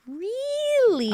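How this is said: It is said imitating Alex's way of talking.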